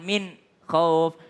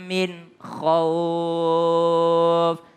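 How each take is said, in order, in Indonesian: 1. Ada jeda singkat di antara kedua kata. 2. Kedua kata mengalir tanpa jeda. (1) "Tapi jangan juga kayak sakta" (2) "tidak lagi berdengung tapi harus jelas huruf kha-nya"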